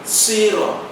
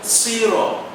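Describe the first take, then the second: No difference in how they are said.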